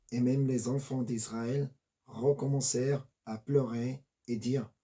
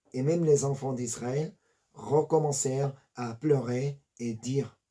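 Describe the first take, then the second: No difference in how they are said.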